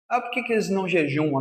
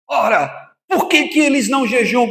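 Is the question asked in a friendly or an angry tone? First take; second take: friendly; angry. First: The question is asked in a friendly, mild tone. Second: The question is asked in an angry tone.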